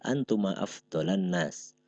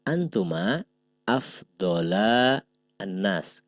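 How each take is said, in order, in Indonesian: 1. Dua kata terakhir disambung menjadi satu. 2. Dua kata terakhir diucapkan terpisah.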